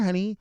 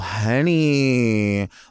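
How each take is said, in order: First: It is said in a warm, sweet tone. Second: It is said in a condescending tone. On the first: It is an affectionate way to address someone. "honey is uh is a is a sweet way to refer to someone" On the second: It talks down to the person addressed. "it becomes a little bit condescending"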